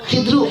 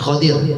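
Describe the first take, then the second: First: First vowel i, no vowel between d and r. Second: First vowel a, with a vowel i before r. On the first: "mal kasr kho" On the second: "bipatul kho kho mujama waqsidot"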